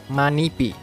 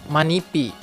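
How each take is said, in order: No difference in how they are said.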